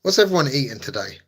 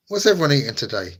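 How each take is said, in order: First: WHAT'S hit hardest, rest even; stress on WHAT'S. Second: Everyone stressed, falling tune after it. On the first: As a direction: lean on the word What's. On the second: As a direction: lean on the word everyone. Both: Shown as a demonstration.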